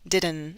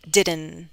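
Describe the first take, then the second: First: The final T is left out entirely. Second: The same.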